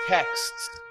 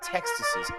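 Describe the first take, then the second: First: The word ends plainly with a final s. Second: The word ends with extra added syllables. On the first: The speaker calls it right. "It's texts, right?" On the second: The speaker calls it wrong. "It's not textuses"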